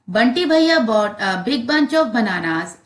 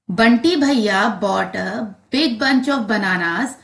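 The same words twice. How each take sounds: First: It is read fastest. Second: It is read a bit faster.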